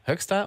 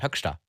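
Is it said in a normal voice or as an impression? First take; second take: normal; impression. First: It is said in the speaker's normal voice. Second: It is said imitating the Bundestrainer's voice.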